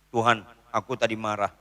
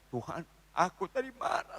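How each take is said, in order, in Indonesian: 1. Diucapkan dengan nada santai dan terlalu akrab. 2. Diucapkan dengan nada patah hati dan rendah hati. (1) "jangan sok akrab minta ampun sama Tuhan" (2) "itu menunjukkan orang itu hancur hati"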